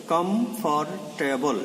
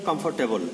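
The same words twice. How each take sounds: First: কমফোর্টেবল slowly broken into kom, for, te, bol; slow, separated syllables on কমফোর্টেবল. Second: Said in the usual way. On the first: Shown as a demonstration. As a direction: count out four syllables in কমফোর্টেবল as you say it. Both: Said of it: "এখানে এই চারটি ধরা যায়".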